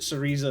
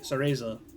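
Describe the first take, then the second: First: The middle vowel has an E sound. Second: The middle vowel has an A sound. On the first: The speaker calls it wrong. "because like Teresa" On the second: The speaker calls it right. "It goes A, not E"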